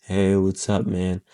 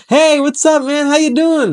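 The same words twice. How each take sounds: First: Down, low energy. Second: Much higher, bright bubbly greeting; all happy. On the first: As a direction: lower and much softer, deflated greeting. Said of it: "by being all down". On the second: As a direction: greet like an overexcited cheerleader. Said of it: "by being all happy". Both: Shown as a demonstration.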